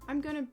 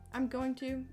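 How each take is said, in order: First: Going to is reduced to gonna. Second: Going to is said in full. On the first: "I say it weird" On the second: "I never say going to"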